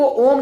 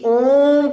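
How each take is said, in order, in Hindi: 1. स्वर ह्रस्व बोला गया है, सामान्य लंबाई में। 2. स्वर लगभग तीन मात्रा तक लंबा खींचा गया है। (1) "ओम को ओम नहीं" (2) "बल्कि ओम करके हम उच्चारण करते हैं"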